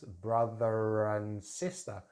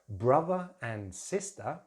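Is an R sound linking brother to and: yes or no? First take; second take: yes; no. First: An R sound links brother and and. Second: No R sound links brother and and. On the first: "we can use a linking R sound to connect these words together" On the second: "usually the R at the end of the word, it's not pronounced"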